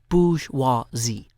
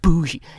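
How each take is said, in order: First: The word is said with all three syllables. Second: The word is clipped to two short syllables. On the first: The speaker calls it right. "three syllables" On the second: The speaker calls it wrong. "lazy people, just saying bougie"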